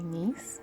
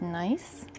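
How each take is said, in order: First: The name is pronounced with French sounds. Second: The name is pronounced with English sounds. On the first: "French probably nice" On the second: "English is probably pronounced nice"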